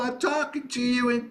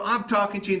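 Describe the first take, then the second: First: The voice is compressed and slightly higher in pitch. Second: The voice is a plain, everyday speaking voice. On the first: "Now I'm talking to you in cry mode. It's maybe a little bit frequencies a little bit higher" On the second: "I'm talking to you in speech mode"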